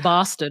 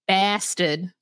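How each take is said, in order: First: It is said in a British accent. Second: It is said in a Boston accent.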